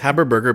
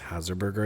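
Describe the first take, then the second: First: The consonant after the first vowel is 'b'. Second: The consonant after the first vowel is 's'. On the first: The speaker calls it right. "It's Haberburger" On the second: The speaker calls it wrong. "you've been mispronouncing it as Haserburger"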